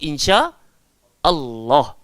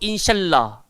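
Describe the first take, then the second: First: A glottal stop separates the two words. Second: The words run together without a glottal stop. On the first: The speaker calls it right. "Kita sebut insya Allah" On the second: The speaker calls it wrong. "Kita tak sebut insyaallah"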